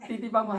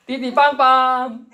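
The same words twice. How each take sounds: First: Said in the usual way. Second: High, slow, drawn-out honking; imitated car horn. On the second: Preacher mimicking cars honking at a driver, drawn-out mock horn. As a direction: sing out the honks like a car horn. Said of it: "띠띠빵빵 하는 거예요".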